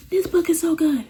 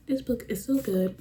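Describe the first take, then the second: First: Much higher and louder, thrilled; excited gushing. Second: Said in the usual way. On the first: Real, not acted. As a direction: burst out in delight about the book. Gushing about favourite book.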